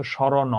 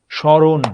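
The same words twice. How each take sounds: First: স্মরণ with an added o after the n; wrong open ending. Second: স্মরণ said loudly, held and closed on n; স্মরণ as "shoron", closed ending; word stops at end. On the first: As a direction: finish স্মরণ as "shorono". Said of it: "যদি ওটা না থামতো". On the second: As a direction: stop স্মরণ on the final n, no vowel. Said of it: "উচ্চারণটা কিন্তু থামছে ওখানে". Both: Shown as a demonstration.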